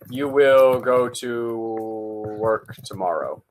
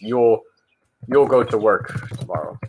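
First: 'You will' is said as two full words. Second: 'You will' is contracted to one syllable, you'll. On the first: The speaker calls it wrong. "You will go to work tomorrow or something" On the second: The speaker calls it right. "the best way to say it is you'll go to work tomorrow"

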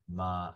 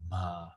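First: The syllable is said with a plain voice. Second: The syllable is said with a breathy voice.

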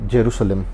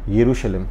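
First: The word begins with a J sound. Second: The word begins with a Y sound.

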